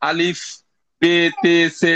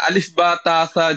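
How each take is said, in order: First: The letter names end in an 'e' vowel. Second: The letter names end in an open 'a' vowel. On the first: The speaker calls it wrong. "যেগুলো উর্দুতে ব্যবহার হয়" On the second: The speaker calls it right. "বেটে বলা যাবে না"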